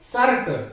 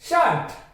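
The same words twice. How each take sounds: First: The r sound is clearly pronounced. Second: The r sound is left silent. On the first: The speaker calls it wrong. "शर्ट कितना गंदा लग रहा है" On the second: The speaker calls it right. "शर्ट ना कि शर्ट"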